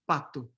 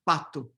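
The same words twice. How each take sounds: The two takes are said the same way.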